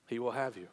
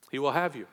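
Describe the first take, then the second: First: Softer, hushed repeat of "He will have you"; tender hushed repetition; quiet echo. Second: Said in the usual way. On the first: Shown as a demonstration. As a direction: let "He will have you" fall away to a hush.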